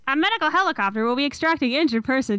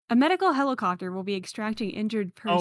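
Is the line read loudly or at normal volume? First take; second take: loud; normal. First: It is read very loudly, close and distorted. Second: It is read at a normal, plain volume.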